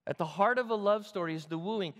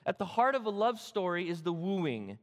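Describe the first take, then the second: No difference in how they are said.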